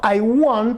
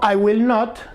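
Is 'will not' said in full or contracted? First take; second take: contracted; full. First: Will and not merge into one short word. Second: Will and not are said as two full words. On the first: "está mejor que perfecto todavía" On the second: "está perfectamente bien dicho"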